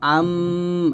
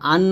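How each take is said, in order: First: The word ends with an m sound. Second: The word ends with an n sound. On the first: The speaker calls it right. "বলবো আম" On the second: The speaker calls it wrong. "আন না বল"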